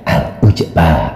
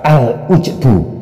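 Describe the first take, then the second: First: The word ends with an a vowel. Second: The word ends with a u vowel. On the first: The word is read in the accusative case. "Ada yang dibaca nasab" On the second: The word is read in the nominative case. "dibaca rafa"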